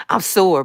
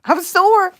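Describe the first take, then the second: First: Said in the usual way. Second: High, loud laughing cry of sore. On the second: Real, not acted. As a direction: squeal it through a laugh. Laughing repeat of "I'm sore.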